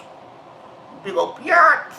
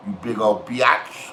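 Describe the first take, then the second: First: Very slow taunt leaping up high on BIATCH; high-pitched taunt. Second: Low, slow drawn-out taunt; taunting insult. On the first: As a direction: stretch BIATCH out into a high squeal. Taunting insult, escalated repeat. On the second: Taunting insult, first take. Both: Acted.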